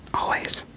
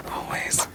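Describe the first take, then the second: No difference in how they are said.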